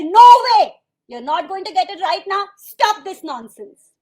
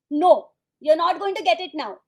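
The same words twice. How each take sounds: First: Explosive high shout, then stern; angry parent. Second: Firm parental refusal. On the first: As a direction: act a parent yelling at a child. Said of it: "And you get angry". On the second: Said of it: "Now you're getting angry". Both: Acted.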